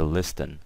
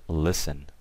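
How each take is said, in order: First: The T sound is pronounced in the middle. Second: The T sound is left out entirely. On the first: The speaker calls it wrong. "So we never say listen" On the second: The speaker calls it right. "We always say listen"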